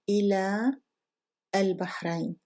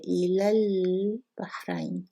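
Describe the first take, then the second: First: The two words are separated by a pause. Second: The two words run together without a pause.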